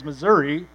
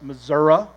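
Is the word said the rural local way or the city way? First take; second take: city; rural local. First: It is said the city slicker way. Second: It is said the rural local way. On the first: The speaker calls it wrong. "a city slicker who says Missouri" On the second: The speaker calls it right. "which is how you say it"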